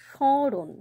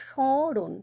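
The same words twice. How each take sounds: The two takes are said the same way.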